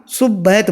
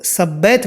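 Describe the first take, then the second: First: "सुब्बैत" with a u after the s; correct "su" vowel. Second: "सब्बैत" with an a after the s; wrong vowel. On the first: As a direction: demonstrate "सुब्बैत" opening on "sub". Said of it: "सुब्बैत बोलना". ("सुब्बैत" सू से, सही उच्चारण) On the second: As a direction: demonstrate "सब्बैत" opening on "sab". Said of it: "सब्बैत मत बोलना". ("सब्बैत" सा से, गलत उच्चारण) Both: Shown as a demonstration.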